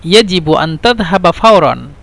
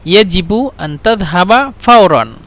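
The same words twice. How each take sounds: The two takes are said the same way.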